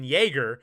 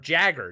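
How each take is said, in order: First: The name begins with a Y sound. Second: The name begins with a J sound. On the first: The speaker calls it wrong. "I thought it was pronounced Dean Yeager" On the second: The speaker calls it right. "or Jagger"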